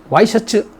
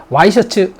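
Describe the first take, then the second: The two takes are said the same way.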